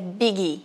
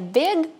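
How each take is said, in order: First: An extra vowel sound is added after the consonant. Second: The word ends sharply on the final consonant. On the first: The speaker calls it wrong. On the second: The speaker calls it right.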